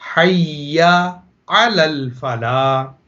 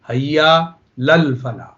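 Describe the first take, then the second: First: The vowel before 'lal' is clearly pronounced. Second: The vowel before 'lal' is dropped entirely. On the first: The speaker calls it right. "ये सही प्रोनाउंसिएशन है" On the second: The speaker calls it wrong. "गलत जो है"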